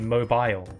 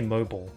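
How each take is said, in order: First: It is said with the British pronunciation. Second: It is said with a non-British pronunciation. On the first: "Apparently in British English, we're supposed to say mobile" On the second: "I'd rather say mobile"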